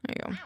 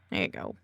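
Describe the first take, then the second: First: Said in the usual way. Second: Low goofy voice. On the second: Pretend. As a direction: drop into a deep silly "There you go". Repeats phrase, second much lower.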